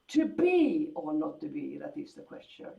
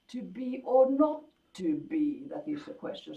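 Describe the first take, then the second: First: It starts loud and then gets quieter. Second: It swells in the middle and then falls away. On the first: "That would be like a sforzando and then a diminuendo" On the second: "a sort of little hillock"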